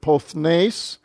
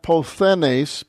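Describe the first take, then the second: First: The th and n sounds run straight together. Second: A vowel separates the th and n sounds. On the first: The speaker calls it right. "That's your theta and nu both together" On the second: The speaker calls it wrong. "not pothenes"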